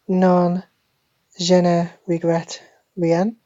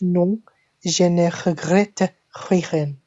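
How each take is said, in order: First: It is said with an English accent. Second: It is said with a French accent. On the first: The speaker calls it wrong. "That's how an ignorant English person would say it" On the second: The speaker calls it right. "but actually it's"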